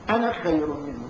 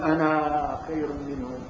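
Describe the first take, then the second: First: The final vowel of the first word is short. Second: The final vowel of the first word is long. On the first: The speaker calls it right. "بالقرآن قراءة حفص أنا تجي مقصورة" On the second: The speaker calls it wrong. "ما تقول"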